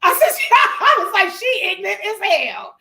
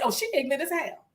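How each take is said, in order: First: Loud, high, laughing outburst; shrieky, delighted retelling through laughter; laughing exclamation. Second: Retold verdict. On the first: Real, not acted. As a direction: crack up while delivering the punchline. Cracking up retelling first impression.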